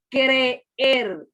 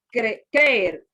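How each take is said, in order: First: Creer said very slowly, cre-er split; right way. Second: Creer clipped into one syllable, krer; wrong way. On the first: Teacher slowly modelling the correct creer, vowels apart. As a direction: separate both e's in creer, slowly. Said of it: "No, usted dice creer". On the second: Teacher showing the wrong creer said like a diphthong. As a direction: squeeze creer into one beat. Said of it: "usted no dice, como en el caso de los diptongos". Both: Shown as a demonstration.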